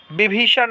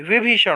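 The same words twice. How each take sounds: First: विभीषण as "bi-bhee-shan"; wrong b sound. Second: विभीषण as "vi-bhee-shan"; correct v sound. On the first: Teacher showing students the mistake, b substituted. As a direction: start विभीषण with b. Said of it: "नहीं". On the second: Teacher giving students the right form, clear v. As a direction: start विभीषण with v. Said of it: "होगा". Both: Shown as a demonstration.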